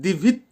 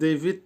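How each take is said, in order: First: The first vowel sounds like 'i'. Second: The first vowel sounds like 'e'. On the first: The speaker calls it right. "এখানে দিভিত" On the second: The speaker calls it wrong. "এখানে ডেভিড হবে না"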